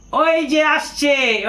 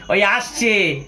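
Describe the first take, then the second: First: Drawn-out, higher mocking call; teasing call. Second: Laughing. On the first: Colleague teasing him at the taxi stand, mocking sing-song. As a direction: tease him as he arrives. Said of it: "ঠাট্টা করে বলছে". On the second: Retold or imitated. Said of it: "আমাকে বলছে".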